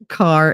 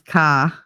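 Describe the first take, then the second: First: The final R sound is pronounced. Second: The final R is dropped, Boston style.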